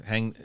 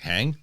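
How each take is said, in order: First: Said in the usual way. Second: Questioning lift on HANG; puzzled echo. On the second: Retold or imitated. Baffled echo of misheard word.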